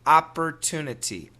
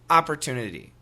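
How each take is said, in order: First: Careful, fully articulated American accent. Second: Relaxed, everyday American accent. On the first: "Perfect American pronunciation" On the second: "Typical American pronunciation"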